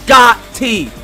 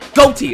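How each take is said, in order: First: The first syllable sounds like 'got'. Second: The first syllable sounds like 'go'. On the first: The speaker calls it right. "It's pronounced Gotti" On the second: The speaker calls it wrong. "It's not pronounced goatee"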